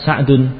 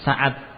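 First: The name is said as Sa'dun, with ending. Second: The name is said as Sa'ad, no ending. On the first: This is the original form of the name. "Asalnya apa?" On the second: This is the local everyday form of the name. "kalau bahasa kita apa?"

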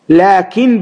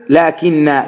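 First: The word ends without a long final vowel. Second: The word ends in a long final 'a' vowel. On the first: This is the other reciters' version of the word. "بغير ألف في الوصل" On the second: This is one reading tradition's version of the word. "بإثبات الألف في الأصل"

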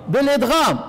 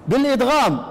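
The two takes are said the same way.

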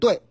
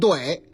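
First: It is read the standard way, like 对. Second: It is read the popular way, not like 对. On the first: This is the officially correct reading. "按正音是念对" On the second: This is the reading everyone understands. "但是呢葛字儿必须念怼"

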